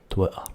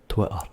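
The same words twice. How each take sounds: Both takes have the same delivery.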